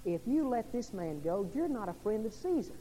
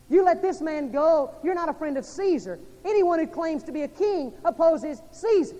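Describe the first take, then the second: First: Said in the usual way. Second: Preacher booming the mob's threat; shouted crowd threat. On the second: Acted. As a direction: yell it like the crowd at Pilate.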